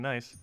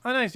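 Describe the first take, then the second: First: Said in the usual way. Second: A bright, much higher "nice" that falls away; pleased surprise. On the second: Real, not acted. Streamer delighted by a viewer's message, excited. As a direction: perk up at the message, louder. Reacting happily to a chat message.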